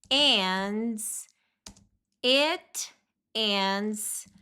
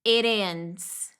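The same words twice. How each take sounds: First: "it", pause, then "ends"; slow unlinked "it ends"; separated words. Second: "It ends" joined, T turned into a tap; one-word "It ends" with flapped T; linked. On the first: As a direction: keep "it" apart from "ends" with a full T. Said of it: "Olha como fica diferente quando junta". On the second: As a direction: link "It ends" like "ih-dends". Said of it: "Olha como fica diferente quando junta, liga". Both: Shown as a demonstration.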